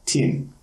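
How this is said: The vowel sounds close to an i.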